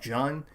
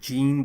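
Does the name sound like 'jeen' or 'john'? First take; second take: john; jeen. First: The name is said with an 'ah' vowel. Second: The name is said with an 'ee' vowel. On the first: This is how the characters say it. "but like they pronounce it John" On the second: This is how the spelling reads. "it's spelled like J E A N, so it's like Jean"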